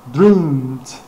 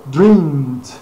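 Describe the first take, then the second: The two takes are said the same way.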